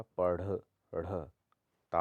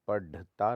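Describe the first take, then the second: First: पढ़ split out with a breathy flap; flapped rh. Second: पढ़ता said as padh-ta; hard stop. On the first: Teacher breaks it down, पढ़ with flapped ढ़. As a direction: isolate the ढ़ after पढ़, then ता. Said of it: "होता है". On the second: Teacher shows the error, पढ़ता with hard ढ. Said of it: "नहीं होता". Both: Shown as a demonstration.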